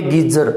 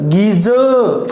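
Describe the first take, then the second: First: गीजर with a short second syllable closed on r; गीजर said quicker, ending in a clear r; wrong version, sounded r. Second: गीजर with long गी and drawn-out, r-less ज़ॅ ending; गीजर said slowly, ending on an open schwa; long ee, soft ending. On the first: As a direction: say गीजर as gee-zar, pronouncing the final r. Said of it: "not a गीजर". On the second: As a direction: stretch गीजर into gee-zuh, no final r. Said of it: "not a जर". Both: Shown as a demonstration.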